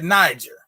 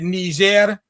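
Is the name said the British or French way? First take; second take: British; French. First: The name is said with a British pronunciation. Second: The name is said with a French pronunciation. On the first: "the British say it" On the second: "The French say it"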